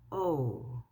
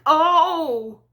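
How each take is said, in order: First: It is said quietly and flatly. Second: It is said loudly, as a painful cry.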